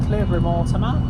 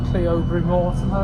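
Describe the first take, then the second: First: Said in the usual way. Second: Cleobury Mortimer said letter by letter as written, CLEE-oh-bury; Cleobury Mortimer read just as spelled, CLEE-OH-bury; spelling pronunciation. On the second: Shown as a demonstration. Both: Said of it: "as it's spelled".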